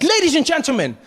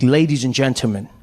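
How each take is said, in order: First: High, hyped-up show host; excited announcer. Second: Low, composed address; cool, calm showman. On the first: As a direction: whip up the crowd as an emcee. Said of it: "Deng Basan's really excited". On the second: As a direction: address the crowd calmly and in control. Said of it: "he was really cool and calm". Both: Acted.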